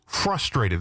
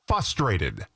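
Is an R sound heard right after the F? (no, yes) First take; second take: yes; no. First: The R after the F is clearly pronounced. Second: The R after the F is missing. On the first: The speaker calls it right. "There's an R there" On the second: The speaker calls it wrong. "No, the word is frustrated"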